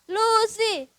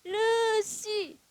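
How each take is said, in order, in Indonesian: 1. Diucapkan dengan normal, mulut terbuka. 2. Diucapkan dengan gigi dirapatkan.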